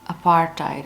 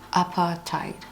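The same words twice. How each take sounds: First: It is said with an American pronunciation. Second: It is said with a British pronunciation. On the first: "and then American is apartheid" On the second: "That's the British pronunciation"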